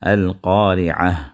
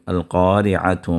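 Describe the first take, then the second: First: The word ends with an 'h' sound. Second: The word ends with a 'tu' sound. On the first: The reading stops on this word. "जब आप रोक देंगे ... हा के साउंड से आप वहाँ रोकेंगे" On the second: The reading continues into the next word. "अगर मिला के पढ़ेंगे तो अल-क़ारिअतु पढ़ेंगे"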